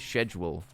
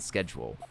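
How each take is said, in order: First: It is said in a British accent. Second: It is said in an American accent. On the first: "British people say schedule" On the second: "rather than schedule"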